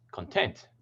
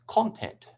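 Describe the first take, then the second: First: "content" stressed on the second syllable, con-TENT; "content" as in satisfied, con-TENT. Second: "content" stressed on the first syllable, CON-tent; "content" as the noun, CON-tent. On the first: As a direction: keep con short and lean on TENT in "content". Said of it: "put the primary stress on the second syllable". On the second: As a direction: hit CON in "content", let tent drop. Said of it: "put the primary stress on the first syllable". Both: Shown as a demonstration.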